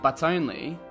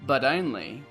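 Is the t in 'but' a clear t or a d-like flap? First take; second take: clear t; d-like flap. First: The t in but is a clear t. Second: The t in but sounds like a d. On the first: "While Brits would say" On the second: "for Americans and Australians, the T becomes a flap T, which sounds like a D sound"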